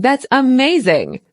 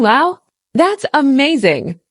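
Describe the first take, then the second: First: Said in the usual way. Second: Slow, lively amazed reading; expressive wow. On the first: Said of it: "than just saying". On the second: Shown as a demonstration. Teacher showing learners an expressive reaction. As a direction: sound truly impressed. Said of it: "adds a lot more expression than just saying".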